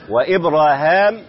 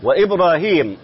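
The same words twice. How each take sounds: First: وإبراهام with a long aa before the final m; alif form. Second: وإبراهيم with a long ee before the final m; yaa form. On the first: Sheikh listing two dialect forms, alif form. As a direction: say وإبراهام with aa in the last syllable. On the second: Sheikh listing two dialect forms, yaa form. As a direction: say وإبراهيم with ee in the last syllable. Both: Shown as a demonstration. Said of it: "لغتان".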